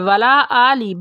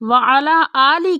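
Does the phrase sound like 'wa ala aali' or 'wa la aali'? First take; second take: wa la; wa ala. First: It is said with the shortened syllables 'wa la'. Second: It is said with the full syllables 'wa ala'. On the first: Blessings are asked not upon the family. The speaker calls it wrong. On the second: Blessings are asked upon the family too. The speaker calls it right.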